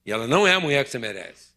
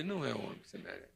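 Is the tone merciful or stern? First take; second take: stern; merciful. First: It is said in a stern tone. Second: It is said in a merciful tone.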